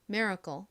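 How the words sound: It is said with an American accent, tense 'kkeul'. "미국식 발음으로는 cle를 좀 세게 발음하여"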